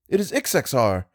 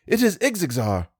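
First: Said in the usual way. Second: It is Ixexar said high and eager, stress on is; excited cry of It is Ixexar; breathless excitement. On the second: A narrator's reading. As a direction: pitch It is Ixexar high with a falling end. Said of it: "I cried, breathless".

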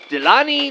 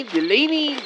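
First: "Delaney" with an "ah" middle, like deh-LAH-nee; trying a pronunciation. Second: "Delaney" with a long A, deh-LAY-nee; trying a pronunciation. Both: Acted. Trying out how name is said.

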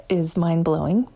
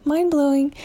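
First: Said in the usual way. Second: "mind-blowing" pitched up high and a bit louder; rising amazement on "mind-blowing"; excited echo. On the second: Real, not acted. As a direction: repeat it, thrilled. Repeats the word for emphasis.

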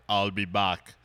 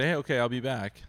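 First: Low, punched movie catchphrase; lowered impression voice for an iconic quote. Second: Said in the usual way. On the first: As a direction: put on the famous accent, deep and deliberate. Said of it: "But if you're like". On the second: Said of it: "like, if you say".

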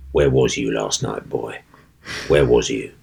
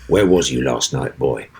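First: Low, gruff, menacing stage voice; stage character line. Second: Low, gruff stage menace; stage character line. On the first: Actor's opening line to Mister Sloane onstage, low menacing thug voice. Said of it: "my opening line to him was". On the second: Actor repeating his line to the fainted co-star, low gruff menace. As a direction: drop low and lean in with threat. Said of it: "and I went". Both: Acted.

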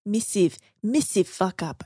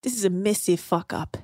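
First: Put-on Australian accent drifting into New Zealand; bad Australian accent. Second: Australian accent attempt. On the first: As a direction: try the Australian missive for massive. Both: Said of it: "I can't do an Australian accent very well".

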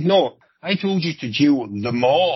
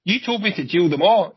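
First: Slow, drawn-out JAIL THEM ALL; emphatic correction. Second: Higher-pitched, defensive comeback; acted protest. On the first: Retold or imitated. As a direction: spell out "jail them all" slowly, as to someone who misheard. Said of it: "The mother, not them all". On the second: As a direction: push the blame back, voice raised in pitch. Cop protests in acted argument.

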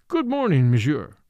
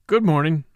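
First: Bright courteous greeting, a little louder; welcoming a suspect politely into the room. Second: Short and clipped greeting, a little louder; a mildly curt return of the greeting. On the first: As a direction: greet him with official politeness. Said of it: "said the judge politely". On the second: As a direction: answer the judge curtly, giving nothing. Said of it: "said Derek Kettering curtly". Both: A narrator's reading.

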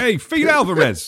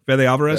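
First: "feed" like the verb, long ee, drawn out slowly and higher, through a laugh; laughing "Hey, feed Alvarez" with the name mangled; mock wrong pronunciation. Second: "Fede" said as FEH-deh, then "Alvarez"; right pronunciation. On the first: Cohost teasing the mispronunciation, slowly laughing "feed". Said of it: "That's what I would've been like". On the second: Shown as a demonstration. Host checks how the director's name is said: "Fede" as FEH-deh. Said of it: "I think that's how you say it".

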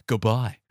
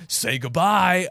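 First: Lightly imitated pirate, low and short; Grapple. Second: Loud, drawn-out pirate villain line; Grapple. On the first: Podcaster quoting the pirate hit through a window, lightly imitated and low. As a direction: drop the pitch for a brief parting line. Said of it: "and he goes". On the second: Retold or imitated. Podcaster quoting the zombie pirate grabbing his victim, mock-menacing. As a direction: stretch it out and send it off with menace. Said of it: "and he says".

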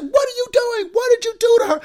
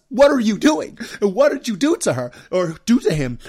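First: Much higher, louder alarmed wife yelling at dad; imitating wife's shriek. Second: Louder mother yelling at dad accusingly; mock yell. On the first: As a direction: burst in and accuse him, shrill with alarm. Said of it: "my wife busts in and said". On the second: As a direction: bark the accusation at the husband. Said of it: "yelling at us".

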